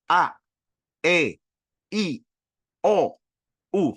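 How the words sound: The vowels are clear, with the mouth wide open. The speaker calls it right. "Paksa diri kita untuk buka"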